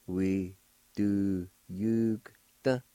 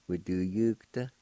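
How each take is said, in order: First: We do yugta stretched out slowly, silent O; slow teaching take of We do yugta; very slow demo. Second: Said in the usual way. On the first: Shown as a demonstration. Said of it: "pronounce the G sound with the Y U like this". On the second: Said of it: "like this".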